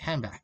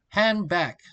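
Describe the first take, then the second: First: The d at the end of 'hand' is dropped. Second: The d at the end of 'hand' is pronounced.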